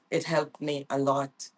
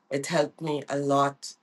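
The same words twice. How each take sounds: The two takes are said the same way.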